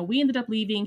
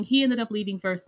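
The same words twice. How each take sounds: First: Said in the usual way. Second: "He" stressed as the correction, the rest even. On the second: Shown as a demonstration. Correcting herself, she stresses "He" in "He ended up leaving first". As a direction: lean on "He" to fix who left first.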